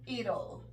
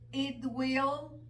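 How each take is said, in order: First: It is said as one short contracted word. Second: It is said as two full separate words.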